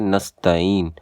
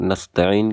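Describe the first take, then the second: First: نستعین as "nasta-een" without a throat sound; نستعین missing its ain; mistaken dropped ain. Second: نستعین as nasta'een with throaty ain; careful Arabic ain inside نستعین; correct ain in نستعین. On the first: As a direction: say نستعین with a smooth vowel glide, no ain. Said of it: "کے بجائے پڑھتے ہیں". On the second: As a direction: sound the ain before the long "ee" in نستعین. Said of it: "نستعین کے بجائے". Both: Shown as a demonstration.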